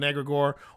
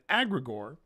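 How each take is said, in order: First: The first vowel is an 'eh' sound. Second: The first vowel is an 'ah' sound.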